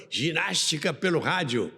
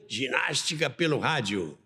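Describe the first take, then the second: No difference in how they are said.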